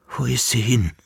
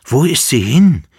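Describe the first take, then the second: First: Said in the usual way. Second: Loud high call. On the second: A narrator's reading. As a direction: cry out into the room. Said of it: "rief der Kaiser". (lauter Ruf)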